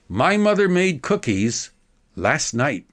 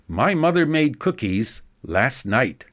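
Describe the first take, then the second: First: It is read slowly with a break after cookies. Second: It is read smoothly without a clear break.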